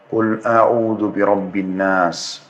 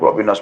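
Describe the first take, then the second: First: It is recited slowly, then a pause. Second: It is recited fast and hurried.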